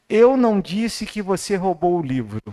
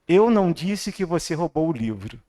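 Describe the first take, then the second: The two takes are said the same way.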